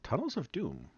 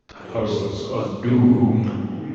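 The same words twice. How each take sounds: First: It is said in a plain, ordinary way. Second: It is said in a menacing way.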